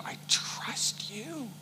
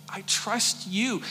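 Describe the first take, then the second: First: Breathy whispered I trust you, slow and faint; broken whisper. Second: I trust you said slow and voiced, gently pleading; soft pleading. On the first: Pretend. Hannah whispering her trust to God, whispered. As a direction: barely breathe the words to God. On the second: Hannah repeating her trust to God, soft pleading. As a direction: say it aloud this time, softly. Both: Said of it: "but I can imagine".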